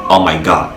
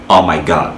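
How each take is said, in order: Both takes have the same delivery.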